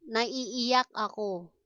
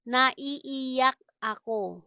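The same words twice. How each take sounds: First: Said in the usual way. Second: Stretched syllables, small gap between words; slow teaching model. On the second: Shown as a demonstration. Teacher models a crying phrase for learners, slowly. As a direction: sound it out carefully.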